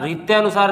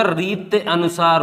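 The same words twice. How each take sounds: First: रीत्यानुसार run together fast with tyaa; wrong pronunciation. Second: रीत अनुसार as two words, reet then anusaar; correct pronunciation. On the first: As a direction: say रीत्यानुसार quickly as the error. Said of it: "रीत्यानुसार नहीं होता". (रीत्यानुसार को गलत जोड़कर बोलिए) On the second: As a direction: separate रीत and अनुसार clearly. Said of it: "रीत अनुसार होता है". (रीत अनुसार को अलग-अलग बोलिए) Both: Shown as a demonstration.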